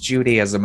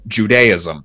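First: It uses the American pronunciation of the word. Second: It uses the international pronunciation of the word. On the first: "that's how they pronounce it here in the States" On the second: "I always went with the international Judaism"

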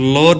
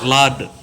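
First: The vowel sounds like a rounded 'oh'. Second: The vowel sounds like an open 'ah'. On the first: The speaker calls it wrong. "లోర్డ్ కాదు" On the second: The speaker calls it right.

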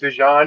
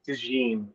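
First: The name is pronounced in a French-sounding way. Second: The name is pronounced in a plain English way. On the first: The speaker calls it wrong. "You keep saying DeJean" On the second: The speaker calls it right. "It's DeJean"

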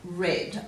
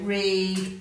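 First: The vowel is a short e sound. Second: The vowel is a long ee sound. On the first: "it can also make a short et sound as in red" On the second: "ea can make a long e sound"

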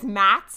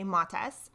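First: The vowel is an 'a' sound. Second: The vowel is an 'o' sound. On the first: "which is really common" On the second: "with an O instead of an A"

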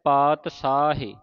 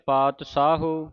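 First: It uses a plain 's' sound and ends in 'e'. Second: It uses a 'sh' sound and ends in 'u'. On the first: The speaker calls it right. "ਸ਼ੁੱਧ ਉਚਾਰਨ ... ਸਾਹੇ ਇਸ ਤਰ੍ਹਾਂ ਉਚਾਰਨ ਹੋਵੇਗਾ" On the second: The speaker calls it wrong. "ਕਈ ਸੰਗਤਾਂ ਤਿੰਨ ਤਰ੍ਹਾਂ ਦਾ ਉਚਾਰਨ ਕਰ ਜਾਂਦੀਆਂ"

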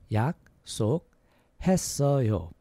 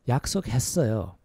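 First: It is said at a slower pace. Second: It is said at a faster pace.

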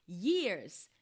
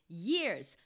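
The two takes are said the same way.

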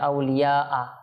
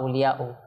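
First: The word ends with an added 'a' vowel. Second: The word ends with an added 'u' vowel. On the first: "জের জবর বলে দেন তাহলে এটা ঠিক না" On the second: "জের জবর বলে দেন তাহলে এটা ঠিক না"

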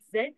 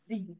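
First: The letter is said in its older form. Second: The letter is said in its newer form. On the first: This is how it was said in the past. "previously, that will be pronounced as Z" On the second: This is how it is said today. "but nowadays it's pronounced as Z"

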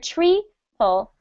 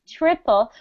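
First: The first vowel is not a short ih sound. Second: The first vowel is a short ih sound. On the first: The speaker calls it wrong. "We don't want to hear triple" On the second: The speaker calls it right. "Ih, triple"

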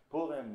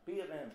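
First: It is said in a Lithuanian Yiddish accent. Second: It is said in a Southern Yiddish accent. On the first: The speaker is a Litvak. "The Litvak speaks differently. He says" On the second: The speaker is not a Litvak.

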